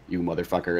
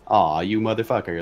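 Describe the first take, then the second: First: It sounds angry and hostile. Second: It sounds amused and bemused.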